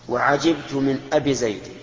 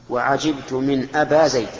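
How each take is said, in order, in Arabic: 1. الكلمة التي قبل زيد تنتهي بكسرة قصيرة. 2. الكلمة التي قبل زيد تنتهي بألف طويلة. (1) "هذا النقص" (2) "هذا القصر"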